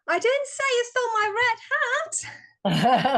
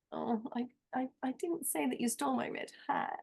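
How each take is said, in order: First: High, fast and eager, ending in a laugh; loud and enthusiastic. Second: Much softer, almost under the breath; hushed delivery. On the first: Volunteer in a speaking workshop trying the sentence loud and enthusiastic. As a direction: throw it out with big energy, laughing at the end. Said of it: "so loud and enthusiastic?". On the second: Workshop participant trying the sentence with a different emotion, very softly. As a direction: pull the volume right down and let it fall away. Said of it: "I could try". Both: Shown as a demonstration.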